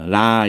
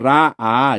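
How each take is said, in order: First: The word is said as one short syllable. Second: The word is said as two separate syllables. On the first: The speaker calls it wrong. "라, 이렇게 발음하고 말아요. 근데 라, 이렇게 해서 한 글자처럼 하면 안 돼요" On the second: The speaker calls it right. "라, 아, 이렇게"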